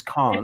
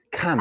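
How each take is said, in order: First: "can't" with a long British ah vowel. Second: "can't" with a short flat a, as in "ant"; short-a "cant". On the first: Teacher giving the apostrophe word, "can't" with long British ah. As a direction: open "can't" out to "cahn't". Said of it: "apostrophe T, which is can't". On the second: Teacher separating two spellings, "can't" with short a as in "ant". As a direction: say "can't" to rhyme with "pant". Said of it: "Not C A N apostrophe T". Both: Shown as a demonstration.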